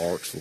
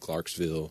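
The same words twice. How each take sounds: First: The final 'ville' is reduced to a short 'vull'. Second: The final 'ville' is full and emphasized. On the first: "instead of" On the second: "I always pronounced the ville with an emphasis on"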